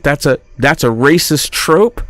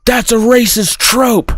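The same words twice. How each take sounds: First: "racist trope" echoed as a rising question; incredulous echo. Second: High-pitched mock indignation; accusing wife. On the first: Retold or imitated. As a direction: repeat "racist trope" back in disbelief, ending upward. Husband echoes accusation as question. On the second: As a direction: declare it like an offended wife. Acted wife accusing husband.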